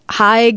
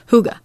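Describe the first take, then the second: First: It is read like an English spelling. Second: It is said with the Danish pronunciation. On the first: A first guess from reading the spelling. The speaker calls it wrong. "When I first read it, I thought it said Haig" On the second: The pronunciation given for the word. The speaker calls it right. "it tells you the pronunciation. And it's hygge"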